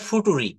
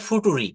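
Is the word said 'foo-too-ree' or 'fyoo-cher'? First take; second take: foo-too-ree; foo-too-ree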